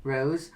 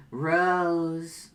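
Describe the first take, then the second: First: Said in the usual way. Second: "Rose" stretched long and held; slow, lingering "Rose"; drawn-out ROSE. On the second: Acted. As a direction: hold the vowel of "Rose" for a long beat. Calls Rose's name again, insistently.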